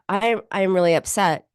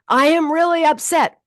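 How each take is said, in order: First: It is said flatly, without feeling. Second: It is said with intense feeling.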